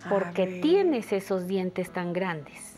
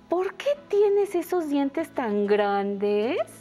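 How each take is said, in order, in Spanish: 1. Se dice con una entonación plana de afirmación. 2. Se dice con una entonación interrogativa. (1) "Sonaría como una afirmación" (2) "si yo le anoto signos de interrogación"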